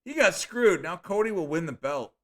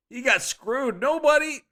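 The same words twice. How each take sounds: First: Loud, high "He got screwed", settling down by the end; shouted again. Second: High, loud shout of "He got screwed"; hyped shout. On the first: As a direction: call it out again, a bit calmer. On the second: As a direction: yell it like a ringside fan. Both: Shown as a demonstration. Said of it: "Now, going again".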